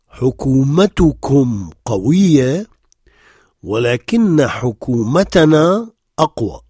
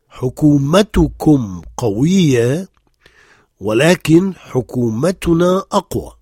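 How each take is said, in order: First: The subject after 'but' ends in an 'a' vowel. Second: The subject after 'but' ends in a 'u' vowel. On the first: The subject is in the accusative case. "le sujet qui suit prend la voyelle E, comme si c'était le cas direct" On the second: The subject is in the nominative case. "On peut dire ولكن, et dans ce cas, après, on revient à un cas sujet"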